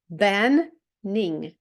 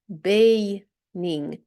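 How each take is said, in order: First: The first vowel is short, as in 'ben'. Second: The first vowel is long, as in 'bay'. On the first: The speaker calls it right. "Ми утворили два закритих склади" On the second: The speaker calls it wrong. "перший склад у нас був би відкритим і читався би"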